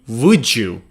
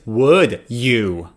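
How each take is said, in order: First: The d and y blend into a 'j' sound. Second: The d and y sounds stay separate. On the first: "which would be would you" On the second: "Another example is would you"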